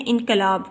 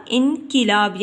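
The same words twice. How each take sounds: First: "انقلاب" as inqalab, a after the q; wrong pronunciation. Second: "انقلاب" as inqilab, i after the q; correct pronunciation. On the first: Teacher shows students the common mistake, "انقلاب" said as in-qa-lab. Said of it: "اکثر غلط بول جاتے ہیں". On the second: Teacher gives students the correct reading, "انقلاب" said as in-qi-lab. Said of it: "کاف کے نیچے ہم نے". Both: Shown as a demonstration.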